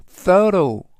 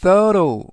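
First: Slow careful English "thorough", stress on the first syllable; louder teacher model of "thorough"; model pronunciation. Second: Second model of "thorough" for students to copy; careful English "thorough"; model pronunciation. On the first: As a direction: say "thorough" clearly for learners. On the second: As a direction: repeat "thorough" slowly, first syllable stressed, silent gh. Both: Shown as a demonstration. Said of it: "thorough라고 발음하시면 되겠고요".

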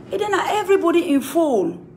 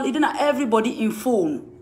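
First: "It then na everybody in phone" lifted high, stressing EVERYBODY; raised repeat. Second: Said in the usual way. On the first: Shown as a demonstration. Calling out Henrietta, pitch jumped up. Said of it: "repeated higher".

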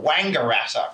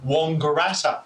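First: Wangaratta with a flat open Wang at the start; usual pronunciation. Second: Wangaratta with a broad rounded first vowel, like Wong-garatta; grandmother's way. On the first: Shown as a demonstration. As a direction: say Wangaratta the common way, first syllable Wang. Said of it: "most people call a Wangaratta". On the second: Retold or imitated. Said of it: "like my grandmother would call".

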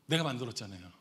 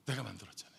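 First: Said in the usual way. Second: Soft, low, falling; lowered-voice emphasis; hushed repeat. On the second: Real, not acted. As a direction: let the point sink in quietly. Repeats the answer softly for effect.

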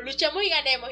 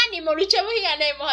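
First: Said in the usual way. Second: Put-on louder child cheer, echoing her father; cheering little girl. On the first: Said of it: "repítelo después de mí". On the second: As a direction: chant it back like an eager little girl. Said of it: "Y la niña".

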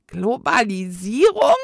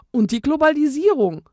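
First: "Globalisierung?" echoed loud with a rising question in the ghost voice; baffled ghost. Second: Said in the usual way. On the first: A narrator's reading. Old ghost echoes the twins' word, baffled and rising. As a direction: repeat the strange word as a puzzled ghost.

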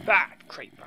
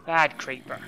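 First: Sharp, higher, loud scold at a bad pet; scolding a naughty pet, now louder. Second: Scolding. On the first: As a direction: tell the creeper off harder. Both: Real, not acted. Scolding a mob like a dog.

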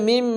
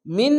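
First: মিম with the final 'm' hummed long. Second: মিন ending on a brief plain 'n'; short final n. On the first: Sung, teacher showing ghunna, মিম with a long nasal 'm'. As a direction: close the lips and hold the hum on মিম. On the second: Teacher showing what not to say, মিন with a short 'n'. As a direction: say মিন short, tongue closing on n. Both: Shown as a demonstration. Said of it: "মিন না বলে মিম".

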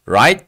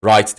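First: "Right" loud with a rising question tune; questioning tag. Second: "right" low and falling, like a statement; wrong tune demo. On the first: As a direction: lift "Right" up as if asking for agreement. ("Right" güçlü, yükselen soru tonuyla) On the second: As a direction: drop "right" as if it meant a direction. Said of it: "right değil". ("right" alçak, düşen tonla, sorusuz) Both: Shown as a demonstration.

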